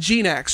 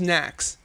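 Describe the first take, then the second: First: A G sound is heard before the name. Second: The name starts without any G sound. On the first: "Am I getting that right" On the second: "or is it just Nax? Is the G silent?"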